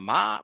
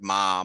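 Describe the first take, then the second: First: The pitch rises from middle to high. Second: The pitch stays high and level. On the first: "a rising tone" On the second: "a high flat tone"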